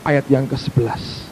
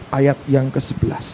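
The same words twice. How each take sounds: The two takes are said the same way.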